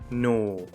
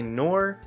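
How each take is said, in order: First: It is said in an Australian accent. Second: It is said in an American accent. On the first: It can be heard as a different word. "if I were to use an Aussie accent" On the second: It means the word in neither nor. "with my American accent"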